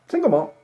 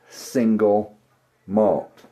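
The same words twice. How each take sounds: First: The words are rushed and run together. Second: The words are said carefully and separately. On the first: The speaker calls it wrong. "It's not" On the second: The speaker calls it right.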